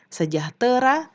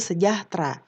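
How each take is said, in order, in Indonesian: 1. Ada empat suku kata, dengan vokal sebelum ra. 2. Ada tiga suku kata, diakhiri tra yang disambung. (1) "harusnya sejahtera" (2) "tapi kalau yang tidak baku sejahtera"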